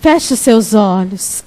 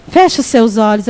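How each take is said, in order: First: Slow down and soften the call to close eyes; gentle, slowed invitation to pray. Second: Said in the usual way. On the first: Shown as a demonstration. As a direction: Feche os seus olhos said slowly, settling into prayer.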